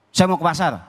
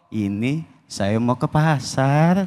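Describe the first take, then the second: First: It is said in a firm, curt tone. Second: It is said in a soft, flirtatious tone.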